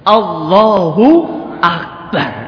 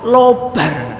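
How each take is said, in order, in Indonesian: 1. Setiap suku kata dalam frasa itu diucapkan dengan jelas. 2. Frasa itu diucapkan terburu-buru dan dipadatkan menjadi dua suku kata.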